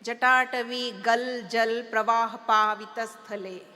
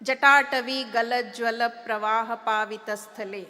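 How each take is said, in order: First: The short a vowels are dropped. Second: The short a vowels are fully pronounced. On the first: This is how the North Indian person recited it. "they don't use the A" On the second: This is the speaker's own South Indian recitation. "I had to recite to her"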